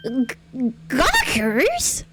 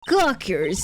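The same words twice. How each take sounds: First: High, incredulous question; startled rising query; taken aback. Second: Said in the usual way. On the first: Acted. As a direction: echo it in disbelief, pitch shooting up. Acted indignant echo of an insult.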